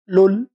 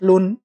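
First: The n sound is merged into a doubled l. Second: The syllable ends with a clear n sound. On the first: The speaker calls it right. "أنطق اتنين لام بقى" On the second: The speaker calls it wrong. "مش لن"

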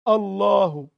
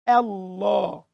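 First: The opening glottal stop sounds thick and heavy. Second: The opening glottal stop sounds thin and light. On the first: The speaker calls it wrong. "لا دي لما تكون عيان مريض" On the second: The speaker calls it right. "ضخم اللام ورقق الهمزة"

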